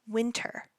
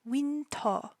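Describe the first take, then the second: First: It is said with English pronunciation. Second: It is said with Korean pronunciation.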